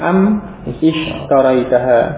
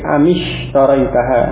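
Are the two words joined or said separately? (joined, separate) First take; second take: separate; joined. First: The two words are said separately. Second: The two words are joined with an i-sound. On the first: "asalnya am ishtaraitaha" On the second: "jadi amishtaraitaha"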